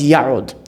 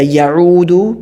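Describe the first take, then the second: First: The word ends on a consonant, vowel dropped. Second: The word ends with a final vowel sound. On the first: The verb follows lam, meaning didn't. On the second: The verb has no particle before it.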